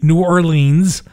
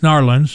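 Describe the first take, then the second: First: It is said the way Northerners say it. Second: It is said the way Southerners say it.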